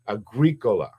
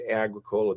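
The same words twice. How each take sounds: First: The name is said with a Latin pronunciation. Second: The name is said with an Americanized pronunciation. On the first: This is the Latin word for farmer. "But when you study Latin" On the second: This is how the owner says his own name. "He pronounces it Agricola, the guy that owns it"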